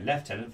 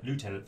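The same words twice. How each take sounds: First: The word is said with a British pronunciation. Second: The word is said with an American pronunciation. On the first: "for British Brits" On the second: "for you Yanks"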